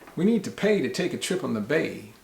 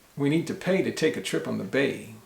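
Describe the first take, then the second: No difference in how they are said.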